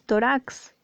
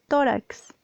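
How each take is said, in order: First: The stress is on the last syllable. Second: The stress is on the first syllable. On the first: The speaker calls it wrong. "aquí le han puesto aguda. No puede ser, porque tú no dices tórax" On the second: The speaker calls it right. "Está tildada en la penúltima sílaba"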